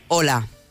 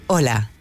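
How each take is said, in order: First: It sounds strong, tense and authoritative. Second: It sounds calm, confident and assertive.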